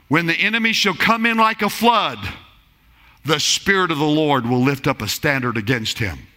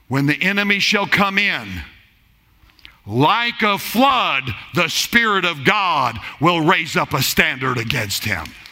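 First: The pause comes after the word flood. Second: The pause comes after the word in.

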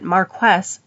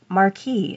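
First: It is pronounced the way 'marquess' is spelled. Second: It is pronounced like the word 'marquis'. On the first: The speaker calls it right. "is actually pronounced more like it's written" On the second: The speaker calls it wrong. "not Marquis, as I had incorrectly assumed"

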